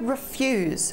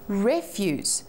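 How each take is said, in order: First: The stress is on the second syllable. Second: The stress is on the first syllable. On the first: To decline something. "when the emphasis is on the second syllable" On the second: Anything thrown away, waste. "when we put the emphasis on the re instead of the fuse"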